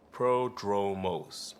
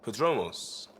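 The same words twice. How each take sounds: First: Prodromos drawn out very slowly, each syllable savored; savoring the name. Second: Said in the usual way. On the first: Shown as a demonstration. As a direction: roll Prodromos out slowly like a grand title. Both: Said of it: "Sounds good, doesn't it?".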